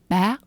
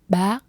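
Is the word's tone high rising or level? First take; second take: high rising; high rising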